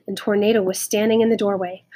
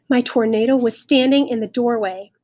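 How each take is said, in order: First: Said in the usual way. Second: Louder, dawning excitement on STANDING; amazed joy. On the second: A narrator's reading. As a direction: repeat it in happy disbelief. Amazed repeat, dog is back.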